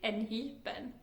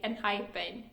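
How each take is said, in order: First: The name is pronounced with Swedish sounds. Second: The name is pronounced with English sounds. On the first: The speaker calls it wrong. "In like Swedish, which I talk, I would have pronounced it" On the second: The speaker calls it right. "in English to say"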